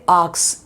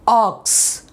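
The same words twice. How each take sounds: First: The vowel is said without rounded lips. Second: The vowel is a rounded, oval-mouthed aw. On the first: The speaker calls it wrong. "you don't say ox" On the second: The speaker calls it right. "see the mouth how it goes, aw, oval shape"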